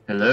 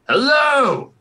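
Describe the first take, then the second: First: It is said quietly and tentatively. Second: It is said loudly in a booming voice.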